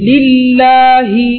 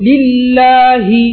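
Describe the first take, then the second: The two takes are said the same way.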